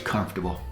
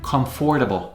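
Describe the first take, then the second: First: The word is said with its usual reduced sounds. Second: Every written letter is sounded out. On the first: The speaker calls it right. "but it's comfortable" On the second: The speaker calls it wrong. "It's written comfortable, which a lot of people mispronounce"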